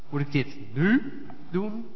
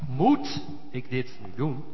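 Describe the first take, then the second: First: The stress falls on the word nu. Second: The stress falls on the word moet.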